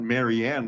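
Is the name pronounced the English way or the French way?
English. The name is said with an English pronunciation. The speaker calls it wrong. "It's not Marianne like we would"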